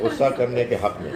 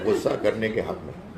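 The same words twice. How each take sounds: First: Repeated with a laugh, a bit louder. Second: Amused remark. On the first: Host amused by a caller's case for anger, laughing. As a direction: chuckle as you say it again, for emphasis. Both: Real, not acted. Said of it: "آپ نے ایک بہت convincing تقریر کی ہے".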